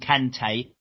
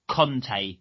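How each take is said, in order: First: The first vowel sounds like 'a'. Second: The first vowel sounds like 'o'. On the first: The speaker calls it right. "Call him Kante" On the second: The speaker calls it wrong. "everyone calls him Conte"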